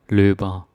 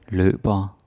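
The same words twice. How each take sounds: Both takes have the same delivery.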